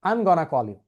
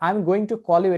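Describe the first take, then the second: First: Going to is squeezed into one word, gonna. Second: Going to is said as two full words. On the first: "এটা না বলে আপনি বলতে পারেন I'm gonna call you" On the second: "যেমন আপনি বলতে পারেন I'm going to call you"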